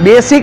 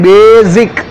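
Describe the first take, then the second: First: The middle consonant is an s sound. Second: The middle consonant is a z sound. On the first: The speaker calls it wrong. "બેસિક નહીં" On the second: The speaker calls it right.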